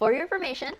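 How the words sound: The voice is pitched high.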